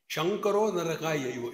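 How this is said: The first word begins with an sh sound. The speaker calls it wrong.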